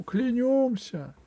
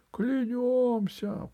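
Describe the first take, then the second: First: High, slow echoing vow; crowd oath echo. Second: High, drawn-out solemn cry; crowd oath. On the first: Crowd repeating the oath, high echoing vow. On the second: The hall swearing loyalty to Alice, solemn cry. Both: A narrator's reading. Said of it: "прокатилось по залу".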